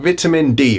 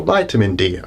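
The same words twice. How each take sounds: First: "vitamin" with a short i, VIT-uh-min; "vitamin" opening like "bit"; British pronunciation. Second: "vitamin" with a long i, VYE-tuh-min; "vitamin" opening like "bite"; American pronunciation. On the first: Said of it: "I'm gonna be saying vitamin". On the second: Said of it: "you can pronounce it properly like me". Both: Shown as a demonstration.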